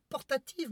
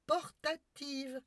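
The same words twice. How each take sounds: First: Said in the usual way. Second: "Portative" drawn out very slowly and high, each syllable spelled out; over-articulate "Portative" as if to a child; slow emphatic portative. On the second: Shown as a demonstration. Spelling out "Portative" slowly to the maid, patronising. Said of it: "c'est une télévision portative".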